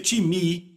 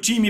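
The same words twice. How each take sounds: First: It is said with the original Greek pronunciation. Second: It is said with the familiar local pronunciation. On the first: "mas se pronuncia time" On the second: "porque é a nossa pronúncia"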